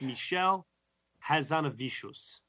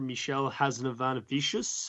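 First: The surname is said without an extra syllable. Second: The surname is said with an extra syllable. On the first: The speaker calls it right. "is the way you say it" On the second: The speaker calls it wrong. "I think I actually just butchered it myself"

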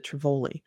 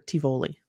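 First: The word is said with an R sound. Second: The word is said without an R sound. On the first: The speaker calls it wrong. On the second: The speaker calls it right.

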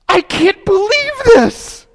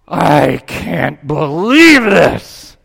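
First: It is said in a girl's voice. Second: It is said in a businessman's voice.

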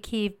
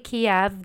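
First: The city name is said the Ukrainian way. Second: The city name is said the Russian way. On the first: This is the form Ukrainians use. The speaker calls it right. "they say Kyiv" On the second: This is the form Russians use. The speaker calls it wrong. "they don't say Kiev"

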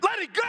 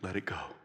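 First: It is said loudly with strong conviction. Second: It is said in a calm, plain voice. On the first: "Now say it like you mean it" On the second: "say this with me"

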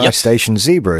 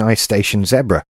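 First: Zebra is said in the listener's American way. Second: Zebra is said in the speaker's own British way.

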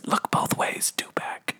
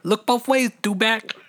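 First: It is whispered softly. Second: It is said in a normal voice.

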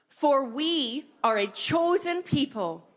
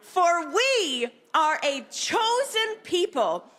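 First: It is said in a plain, even way. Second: It is said strongly, with conviction.

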